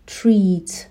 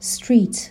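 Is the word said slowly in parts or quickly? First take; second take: slowly; quickly. First: The word is said slowly, part by part. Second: The word is said quickly as one unit. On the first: "اینها رو با توجه به بخش ها آهسته و جدا جدا بگیم" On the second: "و بعد سرعت رو بیشتر میکنیم"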